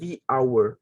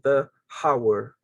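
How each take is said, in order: First: 'The' is said with a long 'ee' vowel. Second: 'The' is said with a short 'uh' vowel. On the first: The speaker calls it right. "It should be the hour" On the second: The speaker calls it wrong. "It's not the hour"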